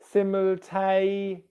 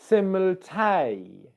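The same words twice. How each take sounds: First: The word is said with light stress. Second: The word is said with stronger stress.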